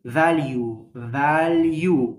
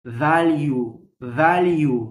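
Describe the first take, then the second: No difference in how they are said.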